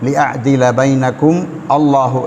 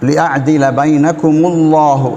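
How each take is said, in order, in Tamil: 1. 'llahu'க்கு முன் தனி 'a' ஒலி ஒலிக்கப்படும். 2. சொற்கள் தனி 'a' ஒலி இல்லாமல் ஒன்றாக ஓடும். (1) "அரபு தெரியாத ஒருவர் ஓதும் போது ... உச்சரிக்கக்கூடாத ஒரு அரிஃபை உச்சரிக்கப்படுகின்ற" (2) "நிப்பாட்டாமல் ஓதக்கூடிய நேரத்தில் எப்படி ஓத வேண்டும்? ... அவர் தான் சரியான முறை"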